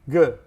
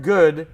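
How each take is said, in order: First: The word is said in a short, reduced form. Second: The word is said in full, with a clear vowel. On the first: "is often pronounced good" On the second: "the word good"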